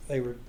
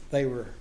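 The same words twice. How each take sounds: The two takes are said the same way.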